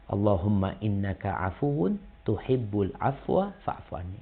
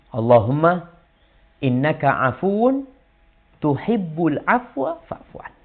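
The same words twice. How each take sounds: First: Soft prayer recitation. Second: Slow, chanted Arabic prayer; prayer recitation. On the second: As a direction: recite the dua slowly, rising. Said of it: "Apa kata Nabi". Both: Shown as a demonstration.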